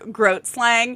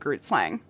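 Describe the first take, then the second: First: The first part rhymes with 'boat'. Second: The first part rhymes with 'boot'. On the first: The speaker calls it right. "it's pronounced like Groat slang" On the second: The speaker calls it wrong. "When I first read it for the first time, I thought"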